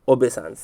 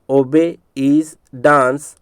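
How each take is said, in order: First: Said in the usual way. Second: "obey is dance" in slow, stretched pieces; broken into parts. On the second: Shown as a demonstration. Teacher repeating a memory trick, broken into parts. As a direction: say "obey is dance" one word at a time. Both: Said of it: "इसलिए इसको तोड़ करके बता रहा हूँ".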